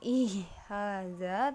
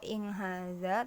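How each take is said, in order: First: No nasal sound comes before the h. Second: An ng sound comes before the h. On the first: "bukan ihaza" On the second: "atau inghaza"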